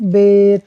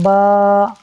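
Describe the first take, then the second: First: It ends in an 'ay' vowel. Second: It ends in an 'ah' vowel. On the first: This is how it is said in Urdu. "ये है Urdu तलफ़्फ़ुज़" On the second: This is how it is said in Arabic. "अरबी में बे, ते से नहीं होता, बल्कि होता है बा"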